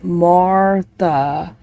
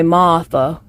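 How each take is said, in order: First: It is said as spelled, with the r. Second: It is Southern, the first syllable sounds like maw.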